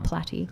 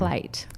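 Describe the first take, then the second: First: The name is said as two syllables. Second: The name is said as one syllable. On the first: The speaker calls it wrong. "Not Platty" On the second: The speaker calls it right. "P L A Y T"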